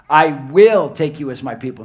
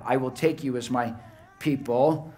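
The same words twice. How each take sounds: First: I will punched hard and much louder; stress on I will. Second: Said in the usual way. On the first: Shown as a demonstration. Preacher stressing that God acts, hammering I will. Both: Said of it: "Not "you will," but "I will".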